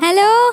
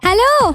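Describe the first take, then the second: First: It is said at a moderate loudness. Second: It is shouted with full force. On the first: The speaker calls it wrong. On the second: The speaker calls it right.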